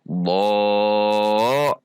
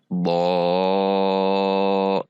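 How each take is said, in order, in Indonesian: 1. Nada sudah naik pada suku kata ini. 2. Nada tetap datar pada suku kata ini. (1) "di bo-nya sudah naik" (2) "di bo-nya tidak naik, namun rata"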